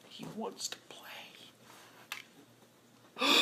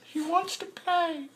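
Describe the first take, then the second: First: Unvoiced whisper, much softer. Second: Much higher, slow, softer; mock awed. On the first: Fan watching Luck beg to play, whispering. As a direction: breathe it out in reverent awe. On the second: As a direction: gush it in awe. Watching Luck on the sideline.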